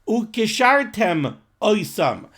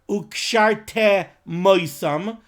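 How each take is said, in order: First: The m sound ends the first word. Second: The m sound starts the second word. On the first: The speaker calls it right. "enunciate the two words carefully as two separate words" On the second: The speaker calls it wrong.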